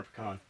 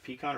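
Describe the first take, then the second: First: Pecan as puh-KAHN, short first syllable; second pronunciation. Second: Pecan as pee-KAHN, with an "ee"; first pronunciation. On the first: Asking the co-host which is right, pecan said puh-KAHN. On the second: Asking the co-host which is right, pecan said pee-kahn. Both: Shown as a demonstration. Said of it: "Is it pecan or pecan".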